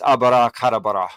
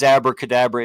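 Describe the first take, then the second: First: It is said in a Hebrew form with extra vowels. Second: It is said in the familiar English form. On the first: "If you said it in Hebrew" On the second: "it is abracadabra"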